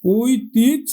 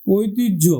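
First: ঐতিহ্য said as "oitijjho", louder; word demo. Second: ঐতিহ্য said as "oitijjho", falling; final demo. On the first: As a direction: say ঐতিহ্য with a doubled j. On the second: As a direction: say ঐতিহ্য with a doubled j and a falling end. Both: Shown as a demonstration. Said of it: "তাহলে আমরা লিখলাম ঐতিস".

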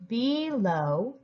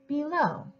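First: "Below" said syllable by syllable, rising; sounding out "Below" slowly; segmented then blended. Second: Said in the usual way. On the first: Shown as a demonstration. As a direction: pull "Below" apart with a rise at the end. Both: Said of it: "help us with the bigger word".

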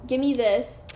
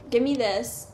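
The two takes are said the same way.

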